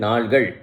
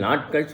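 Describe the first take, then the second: First: The middle consonant is an 'l' sound. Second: The middle consonant is a 't' sound. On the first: It means days. The speaker calls it right. "நாள்கள் என்று சொல்லணும்" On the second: It means toddy obtained that day. The speaker calls it wrong. "இந்த இடத்துல நாட்கள் சொல்லக்கூடாது"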